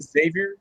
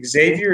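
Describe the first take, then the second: First: Xavier as "ZAY-vee-er", questioning; unsure "ZAY-vyer" for Xavier, rising; trying a pronunciation. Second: Xavier as "eg-ZAY-vee-er", questioning; unsure "eg-ZAY-vyer" for Xavier, rising; trying a pronunciation. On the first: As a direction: try Xavier with a plain z at the start. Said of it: "How do you say it?". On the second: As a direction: try Xavier with a gz sound at the start. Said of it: "I can't pronounce his name. How do you say it?". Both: Shown as a demonstration.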